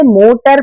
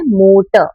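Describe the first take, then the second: First: मोटर with the final R sounded out as "mo-tar"; R pronounced. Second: मोटर as "MO-tuh", final R silent. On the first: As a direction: give the end of मोटर a full, stressed R. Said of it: "हम आर बोलने में भी तो stress लगाते हैं". (मोटर के आख़िर का र साफ़ बोलकर) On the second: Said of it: "इसका फोनेटिक प्रोनाउंसिएशन है मोटर". (मोटर का र साइलेंट, "मोट" के बाद हल्का अ) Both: Shown as a demonstration.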